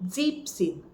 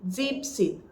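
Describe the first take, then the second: The two takes are said the same way.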